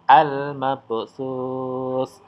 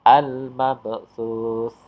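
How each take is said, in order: The two takes are said the same way.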